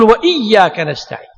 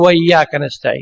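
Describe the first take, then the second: First: The glottal stop before iyyaka is clearly pronounced. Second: The glottal stop before iyyaka is swallowed. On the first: The speaker calls it right. "تظهر الهمزة" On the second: The speaker calls it wrong. "لا ما يصير تأكلها"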